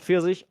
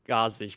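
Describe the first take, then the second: First: The name begins with a pf sound. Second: The name begins with a g sound. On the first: The speaker calls it right. "And it's called Pfirsich. I know it now" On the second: The speaker calls it wrong. "I always said Gazich"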